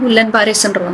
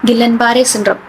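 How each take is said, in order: First: The first word begins with a 'gu' sound. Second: The first word begins with a 'gi' sound.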